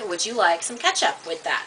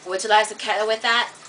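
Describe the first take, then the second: First: Each word is pronounced clearly and separately. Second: The words are slurred together into one stream. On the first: The listener can understand it easily. "I enunciated each word" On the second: Non-native listeners cannot follow it. "it's one word on each other word"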